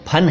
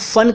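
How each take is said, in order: First: The word begins with a breathy p sound. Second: The word begins with an f sound. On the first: The speaker calls it right. "ये तो फन है।" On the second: The speaker calls it wrong. "इसको कुछ लोग फन कह देते हैं"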